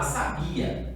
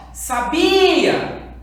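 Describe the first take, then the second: First: Said in the usual way. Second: "sabia" chamado alto e agudo, BI bem esticado; chamando a palavra. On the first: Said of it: "como que eu vou chamar essa palavra". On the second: Shown as a demonstration. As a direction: chame "sabia" como quem chama alguém, alongando o BI. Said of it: "chamar essa palavra pra descobrir a sílaba tônica". ("sabia!" lento, com o BI forte e prolongado)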